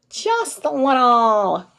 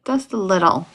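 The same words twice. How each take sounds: First: Slow, stretched goofy take on the words; goofy drawn-out. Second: Said in the usual way. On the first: Shown as a demonstration. A tired teacher being goofy for the live chat, slow and silly. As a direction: drag it out silly, higher. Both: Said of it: "goofier version of myself today".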